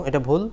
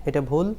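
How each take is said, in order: No difference in how they are said.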